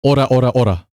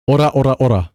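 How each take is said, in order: Both takes have the same delivery.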